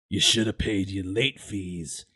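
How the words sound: It is said in a gravelly, dark voice.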